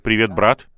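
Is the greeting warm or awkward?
awkward. The greeting sounds awkward and unsure.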